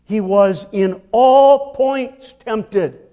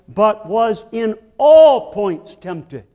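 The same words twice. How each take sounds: First: "all points" slow and stressed. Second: Slow and louder, "all" punched; stress on all points again. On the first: Preacher quoting Hebrews, stressing all points slowly. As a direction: hit "all" hard and slow. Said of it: "makes the same point". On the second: Preacher insisting to listeners, slow emphatic stress. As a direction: drive home "all points". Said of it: "You mustn't suppose". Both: Shown as a demonstration.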